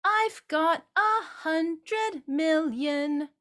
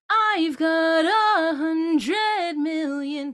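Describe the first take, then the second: First: Flat, separate notes, slow and higher; each note pushed out separately; not slidey. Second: Sung slow and loud, leaning in; leaning into sounds. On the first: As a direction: sing it choppy, no slide. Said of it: "that's not really slidey". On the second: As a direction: lean into each sound. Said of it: "I'm leaning into those sounds". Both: Shown as a demonstration.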